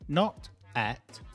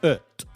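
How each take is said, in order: First: The vowel is a full, open vowel. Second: The vowel is a short, weak schwa. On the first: The speaker calls it wrong. "if you say at... it's too long" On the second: The speaker calls it right. "Ut, not at, ut"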